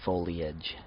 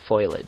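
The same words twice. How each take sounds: First: The E is said as its own separate syllable. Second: It begins with the sound 'foil', letters swapped. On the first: "the E sound has always been a, uh, its own syllable for me" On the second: "that's just reversing the letters that are actually in the word"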